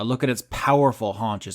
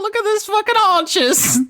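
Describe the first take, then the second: First: It is said in her natural voice. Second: It is said in a put-on character voice.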